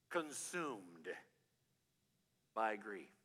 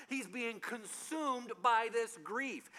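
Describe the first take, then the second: First: Consumed by grief, low and soft; hushed emphasis. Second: Consumed by this grief, slow and higher; slow emphatic preaching. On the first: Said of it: "You know what consume means". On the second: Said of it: "preaching emphasis". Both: Shown as a demonstration.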